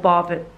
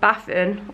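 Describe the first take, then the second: First: It is said with a southern English accent. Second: It is said with a northern English accent. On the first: The speaker is from the south. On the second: The speaker is from the north. "so it's either"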